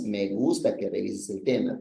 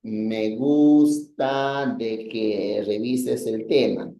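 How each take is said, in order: First: Said in the usual way. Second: Slow, deliberate wrong example; wrong usage example. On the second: Shown as a demonstration. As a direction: spell out the mistake slowly. (ejemplo incorrecto, dicho despacio) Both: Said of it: "Deberías haber dicho nada más".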